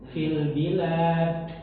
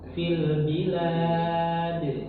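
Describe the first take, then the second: First: The final d is released with a puff of air. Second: The final d bounces with a voiced release. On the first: The speaker calls it wrong. "fil bilad begitu, keluarnya udara" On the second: The speaker calls it right. "Jadi suara"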